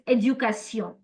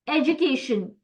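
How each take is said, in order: First: It is said with French pronunciation. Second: It is said with English pronunciation. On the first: "In French, it's éducation" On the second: "same word in French, same in English"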